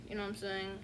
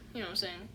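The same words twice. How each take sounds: The two takes are said the same way.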